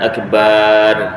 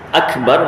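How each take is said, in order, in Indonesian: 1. Vokal akhirnya dipanjangkan. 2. Vokal akhirnya pendek. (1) "kalau bar dipanjangkan" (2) "Akbar maksudnya maha besar"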